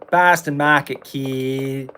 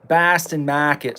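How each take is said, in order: First: Put-on light Boston accent, r dropped in Mahket. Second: Slow Boston drawl, r-less Bahstan Mahket; Boston accent. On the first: Gamer riffing in a Boston accent. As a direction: say Boston Market the Boston way. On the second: Pretend. Gamer joking about the restaurant in a Boston accent.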